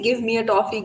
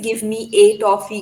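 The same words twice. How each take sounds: First: The word 'a' is a weak, reduced 'uh'. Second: The word 'a' is a full 'ay' sound. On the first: The speaker calls it right. "So we say" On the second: The speaker calls it wrong. "We never say"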